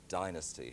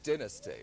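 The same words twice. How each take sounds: First: It is said the way Americans usually say it. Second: It is said the way the British say it. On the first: The speaker calls it wrong. "everybody calls it dynasty here" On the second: The speaker calls it right. "The proper way of saying it"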